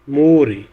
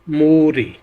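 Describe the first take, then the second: Both takes have the same delivery.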